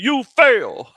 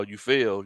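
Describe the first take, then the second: First: Loud, high, emphatic "You fail" as a teacher; imitating a teacher hammering "You fail"; imitated heavy emphasis on "You fail". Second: Said in the usual way. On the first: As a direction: punch both words of "You fail" in mock pronouncement. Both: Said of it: "he said it with such emphasis".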